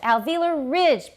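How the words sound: The main stress falls on the second word. The speaker calls it right. "ridge 比较高，因为有 tonic stress 的关系"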